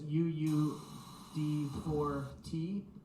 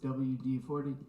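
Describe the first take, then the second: First: The letters are said slowly and separately. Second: The letters are run together quickly.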